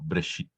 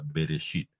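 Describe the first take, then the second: First: The B runs straight into the R. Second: A stressed E is heard between B and R. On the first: "Como más cortita, simplemente pronunciando la B y pasando directo a la R" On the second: "yo lo pronuncio con la E muy acentuada"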